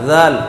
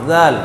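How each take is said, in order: Both takes have the same delivery.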